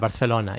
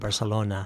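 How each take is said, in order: First: It is said with a Spanish pronunciation. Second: It is said with an English pronunciation. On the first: "if you're speaking Spanish, you would say" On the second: "I was using the term in English"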